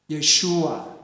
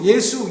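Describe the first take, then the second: First: The name is three syllables, with sh. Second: The name is two syllables, with a plain s. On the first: This is the original Hebrew form of the name. The speaker calls it right. "뭐라고 불러야 되죠? 예슈아" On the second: This is the Korean form of the name. The speaker calls it wrong. "예수라는 말도 없습니다"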